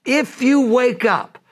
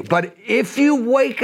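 First: Even slower, higher repeat of the plea; high pleading call. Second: Slow, lifted plea to wake up; high pleading call. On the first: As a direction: press the appeal once more. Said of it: "he goes". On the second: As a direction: urge them gently but high. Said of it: "He goes". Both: Retold or imitated.

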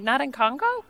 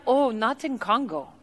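First: "Not in Congo" softly lifted into a rising question; puzzled echo. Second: Softer, badly faked Congolese accent; mock Congolese accent. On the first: Retold or imitated. Puzzled guest repeats "Not in Congo", rising at the end. Echoes the lady's answer, puzzled. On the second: Tea lady corrects the excited guest, mock Congolese accent. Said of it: "her accent sounded nothing like this".

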